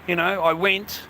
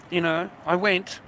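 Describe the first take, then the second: First: I pushed up with a rise; stress on I. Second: Went landed firmly; stress on went. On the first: To the listener, insisting that he himself went, stress on I. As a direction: lean on the word I. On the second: To the listener, confirming he really went, stress on went. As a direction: hit the word went. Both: Real, not acted.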